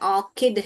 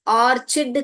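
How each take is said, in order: First: The middle consonant is a k sound. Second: The middle consonant is a ch sound. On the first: The speaker calls it right. "मगर ये ऑर्चिड नहीं है, ऑर्किड है।" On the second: The speaker calls it wrong. "बहुत लोग इसको भी गलत प्रोनाउंस करते हैं, ऑर्चिड करके बोलते हैं"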